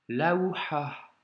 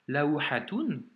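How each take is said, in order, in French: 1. Le mot finit par un h soufflé léger. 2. Le mot finit par une syllabe -tun complète. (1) "Tu vois le petit vent à la fin?" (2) "tu peux soit le prononcer toun"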